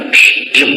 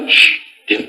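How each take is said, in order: First: A stronger, more forceful whispered shush; harder hush. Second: Put-on whispered hush to a child; parent hushing. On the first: Retold or imitated. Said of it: "Orang tuanya tambah kenceng". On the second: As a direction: hush the kid in a breathy whisper.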